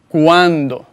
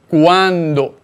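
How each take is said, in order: Both takes have the same delivery.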